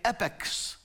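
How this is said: The word is pronounced the American way. "in America, you say epochs"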